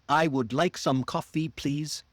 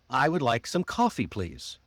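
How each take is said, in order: First: Every word gets equal emphasis. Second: Would, some and coffee are emphasized.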